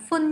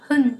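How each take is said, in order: First: "phun" begun with an f; wrong f sound. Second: "hun" begun with a breathed h; correct h sound. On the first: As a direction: say "phun" with f instead of h. (đọc sai thành "phun" với âm f) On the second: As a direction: say "hun" with h, not f. (đọc "hun" với âm h) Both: Shown as a demonstration. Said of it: "không phải là phun nhá".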